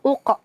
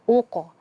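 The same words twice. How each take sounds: First: The final sound is cut off with a glottal stop. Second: The final sound bounces out fully and clearly. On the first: The speaker calls it wrong. "Jangan uko" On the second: The speaker calls it right. "tapi pantulkan dengan sempurna"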